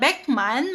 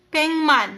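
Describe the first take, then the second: First: The first syllable ends in a k sound. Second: The first syllable ends in an ng sound. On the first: The speaker calls it wrong. "imbes na Beckman" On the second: The speaker calls it right. "magiging Pengman or Bengman"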